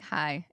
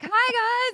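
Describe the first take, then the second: First: The greeting sounds flat and nervous. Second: The greeting sounds lively and over the top.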